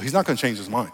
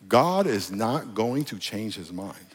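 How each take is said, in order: First: It is said at normal speed. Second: It is said slowly.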